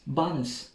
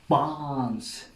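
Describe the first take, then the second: First: It is said with an Uzbek English accent. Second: It is said with a British English accent. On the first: A newcomer says it and is not understood. The speaker calls it wrong. "at that time I was pronouncing the name of the station Barnes" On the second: Local staff say it this way. The speaker calls it right. "the way they pronounce this word was Barnes"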